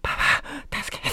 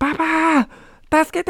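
First: It is said very quietly, barely voiced. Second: It is shouted loudly with full force.

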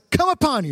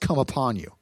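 First: It is said in a joyful, celebrating tone. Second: It is said in a grim, ominous tone. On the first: Something good has arrived for the listeners. The speaker calls it wrong. "It sounds like a big rejoicing moment" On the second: The listeners have been caught like thieves. The speaker calls it right. "It's used very negatively"

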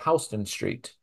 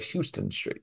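First: Houston is said the New York street way. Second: Houston is said the Texas city way. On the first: It names the street in New York. The speaker calls it right. "here in New York, we have Houston Street" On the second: It names the city in Texas. The speaker calls it wrong. "instead of Houston Street"

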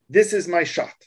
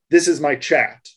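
First: The last word is said as French chat. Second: The last word is said as English chat. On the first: The word is read as a French word. "if I put language indicating that it's French around the chat" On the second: The word is read as an English word. "in English, that would come across as"

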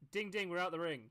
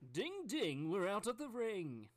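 First: It is said in a plain, low-energy way. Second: It is said with more energy and passion. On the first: The speaker calls it wrong. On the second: The speaker calls it right.

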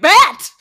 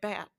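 First: It is said very loudly. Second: It is said quietly and flatly.

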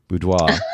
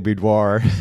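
First: It is said with a French pronunciation. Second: It is said with an American pronunciation. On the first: "the French pronunciation" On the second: "what we normally say"

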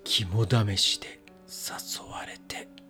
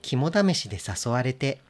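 First: It is said in a spooky, scary tone. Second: It is said in a plain, ordinary tone.

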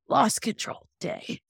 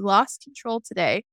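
First: It is said in a put-on character voice. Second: It is said in the speaker's normal voice. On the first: The speaker calls it right. "Let me do my Stefan voice" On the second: The speaker calls it wrong. "I'm sorry"

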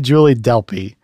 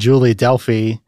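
First: The surname is said with a p sound. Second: The surname is said with an f sound. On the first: The speaker calls it right. "It's apparently Julie Delpy" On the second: The speaker calls it wrong. "I've been saying Julie Delphi the whole show"

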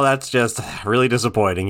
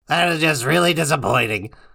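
First: It is said in the speaker's normal voice. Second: It is said in a put-on character voice. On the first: "I thought you were gonna do it in the voice" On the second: "I could do Ice King's voice at one point"

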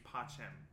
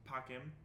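First: The middle consonant is a soft ch sound. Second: The middle consonant is a hard k sound. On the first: This is the church Latin pronunciation. "They use pachem for peace" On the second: This is the classical Latin pronunciation. "Which is a hard sounding thing"

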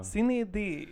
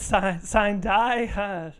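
First: It sounds like 'see-neh dee', Latin-style. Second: It sounds like 'sign die', anglicized. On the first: This is how the original Latin would sound. "that's the Latin is what it looks like" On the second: This is the usual American way of saying it. "I say sign die, because I'm an American"

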